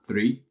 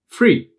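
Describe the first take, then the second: First: The word begins with a 'th' sound. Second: The word begins with an 'f' sound.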